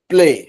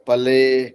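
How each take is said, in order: First: P and l are joined with no vowel. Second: A short a vowel separates p and l. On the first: The speaker calls it right. "लेकिन बोलना है इसको प्ले" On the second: The speaker calls it wrong. "हजार तरह का होता है उच्चारण"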